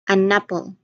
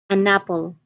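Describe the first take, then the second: Both takes have the same delivery.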